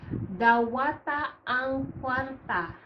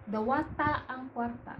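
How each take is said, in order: First: "Dawata ang kwarta" said slowly, each syllable clear, "dawata" drawn out; slow teacher demo of "Dawata ang kwarta"; slow model reading. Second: Said in the usual way. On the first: Shown as a demonstration. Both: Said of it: "dawata is accept".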